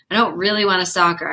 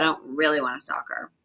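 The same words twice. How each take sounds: First: Said in the usual way. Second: Same line repeated lower and softer. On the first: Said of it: "but I don't really wanna stalk her". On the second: Real, not acted. Streamer repeating to chat she doesn't want to stalk, softly. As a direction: drop the voice for the repeat.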